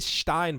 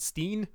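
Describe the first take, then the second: First: The vowel sounds like 'eye', as in 'line'. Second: The vowel sounds like 'ee', as in 'seen'. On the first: This is the speaker's own first instinct. "I want to say Stein" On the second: This is how Americans say the name. "I think Americans pronounce it Steen"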